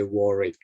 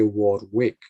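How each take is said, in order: First: "Warwick" as WOR-ick, middle w dropped; "Warwick" pronounced "Worrick"; silent second W. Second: "Warwick" as WARD-wick, both w's sounded; spelling pronunciation. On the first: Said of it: "but you say Warwick". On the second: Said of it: "So you don't say Warwick". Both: Shown as a demonstration.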